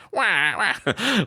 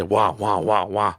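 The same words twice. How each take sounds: First: Put-on much higher, babyish wah wah with a rising end; mock whining. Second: Said in the usual way. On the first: Shown as a demonstration. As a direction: whine like a spoiled child. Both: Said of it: "it sounds like I'm just whining and crying".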